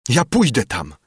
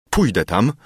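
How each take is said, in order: First: Raised-pitch, defiant outburst; desperate, half-shouted resolve; mild shout. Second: Restrained, pained resolve; understated anguish; dull, crushed voice. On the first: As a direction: insist loudly against being held back. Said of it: "krzyczałem". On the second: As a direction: say it hollowly, weighed down by grief. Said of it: "rzekłem głucho, zgnębiony straszną boleścią". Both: A narrator's reading.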